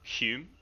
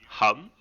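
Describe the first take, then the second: First: The vowel is not the one in hummus. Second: The vowel is the one in hummus.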